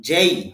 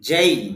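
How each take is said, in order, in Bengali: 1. স্বরধ্বনিটি e থেকে i-এর দিকে গড়িয়ে যায়। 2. স্বরধ্বনিটি e থেকে i-এর দিকে গড়িয়ে যায়।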